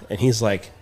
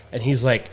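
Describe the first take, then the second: No difference in how they are said.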